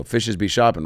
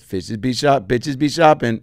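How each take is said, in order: First: Said in the usual way. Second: Echoing the phrase, "Fishes" slipping into "bitches"; higher copycat voice turning "Fishes" into "bitches"; mispronounced fishes. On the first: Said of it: "Or I go". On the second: Retold or imitated. Imitating him repeating the script, mispronouncing fishes as "bitches". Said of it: "it's coming out as bitches".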